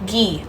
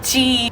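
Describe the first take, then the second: First: The word is said like 'ghee', hard g. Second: The word is said like the letter G. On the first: The speaker calls it right. "it's Gi" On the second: The speaker calls it wrong. "I think I pronounced it wrong"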